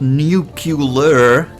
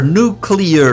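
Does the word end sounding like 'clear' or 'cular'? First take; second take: cular; clear. First: The word ends with a sound like 'cular'. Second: The word ends with a sound like 'clear'. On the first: The speaker calls it wrong. "not nuclear" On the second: The speaker calls it right. "Clear, nuclear"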